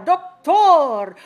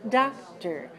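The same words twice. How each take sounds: First: The last syllable has a full, clear vowel. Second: The last syllable has a short, reduced vowel. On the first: The speaker calls it wrong. "don't say tor" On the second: The speaker calls it right. "those syllables are weak"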